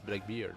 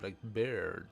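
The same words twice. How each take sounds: First: The second part sounds like 'beard'. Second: The second part sounds like 'bird'. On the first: The speaker calls it right. "you don't say bird, but beard" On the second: The speaker calls it wrong. "It's not"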